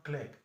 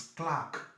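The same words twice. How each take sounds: First: "clerk" said as a softer "klek"; mispronounced clerk. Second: "Clark" said as "klaahk"; long A. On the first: Teacher shows what not to say, short "klek". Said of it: "It's not clerk". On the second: Teacher corrects a common mistake, long-vowel "Clark". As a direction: hold an open "ah" in "Clark". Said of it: "it's a long ha". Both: Shown as a demonstration.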